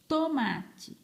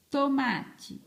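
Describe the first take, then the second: No difference in how they are said.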